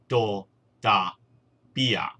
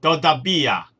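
First: Todavía drawn out slowly, stress on the last syllable -ía. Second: Said in the usual way. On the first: Shown as a demonstration. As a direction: spell out Todavía slowly for learners. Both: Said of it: "重音亦都喺最尾嗰個音節".

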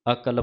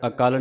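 First: ਅਕਲ with short vowels, a-kal; correct pronunciation. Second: ਅਕਲ misread as a-kaal, long second a; wrong pronunciation. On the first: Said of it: "ਪਾਠ ਉਚਾਰਨ ਕਰਨਾ ਹੈ". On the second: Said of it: "ਨਹੀਂ ਕਹਿਣਾ". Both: Shown as a demonstration.

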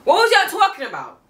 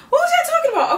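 First: High, loud incredulous demand. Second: High squeaky laughing demand; laughing disbelief. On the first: Fan scolding critics, high and incredulous. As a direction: call out the haters in disbelief. Repeating the question louder. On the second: Fan mocking critics with a high laugh. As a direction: crack up while calling them out. Repeated, laughing, much higher. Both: Acted.

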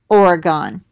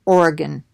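First: "Oregon" ending in a full "gone". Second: "Oregon" with a reduced last syllable, like "gun". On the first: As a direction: say "Oregon" with an open last syllable, like "gone". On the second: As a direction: say "Oregon" quickly, ending in a short "gun". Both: Shown as a demonstration. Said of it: "however you say it".

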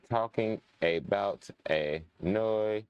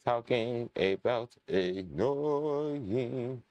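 First: "Talking" stretched very slow and leaned on; drawn-out complaint. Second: "annoying" stretched very slow and sung up high; drawn-out complaint. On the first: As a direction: drag out "Talking" as you grumble. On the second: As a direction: pull "annoying" up and out like a moan. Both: Acted.

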